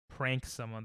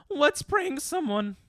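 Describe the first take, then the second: First: Said in the usual way. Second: High, slow put-on silly voice; drawn-out, high-pitched mock enthusiasm; mock childish eagerness. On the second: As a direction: pipe it up like an overeager prankster. Mockingly acts out the childish suggestion.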